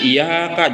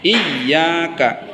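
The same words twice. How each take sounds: First: The y sound is short and not doubled. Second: The y sound is held long and doubled. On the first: The speaker calls it wrong. "Jangan iyyaka, jangan" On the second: The speaker calls it right. "Siddahnya baca iyyaka"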